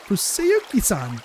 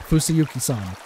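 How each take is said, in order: First: Fusayuki-san said slowly, each syllable separate; slow correction. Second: Said in the usual way. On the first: Shown as a demonstration. Girl slowly correcting how the boy's name is said. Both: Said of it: "No, Fusayuki-san".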